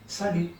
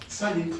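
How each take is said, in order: Both takes have the same delivery.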